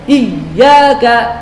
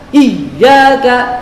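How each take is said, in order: Both takes have the same delivery.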